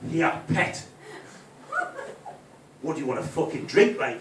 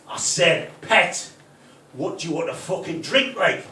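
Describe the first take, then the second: First: Mock hard-man snarl in a put-on accent. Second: Louder insistent repeat in a fake Geordie accent; stupid put-on accent. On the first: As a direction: snarl it like a fake tough Geordie. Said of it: "snarl at her". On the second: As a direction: bark it in a hammed-up Geordie accent. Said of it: "put on that stupid accent".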